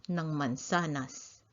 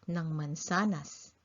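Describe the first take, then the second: Both takes have the same delivery.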